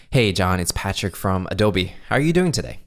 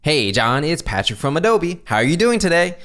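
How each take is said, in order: First: Easygoing greeting, lifting on the question; positive, casual tone. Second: High, over-energetic fake enthusiasm; fake salesperson. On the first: Caller opening a cold call, casually positive. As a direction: keep it casual with a hint of energy. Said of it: "go into the positive tone". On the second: Fake salesperson greeting a prospect, slimy false enthusiasm. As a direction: gush it insincerely, slimy and sleazy. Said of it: "what a fake salesperson will sound like". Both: Shown as a demonstration.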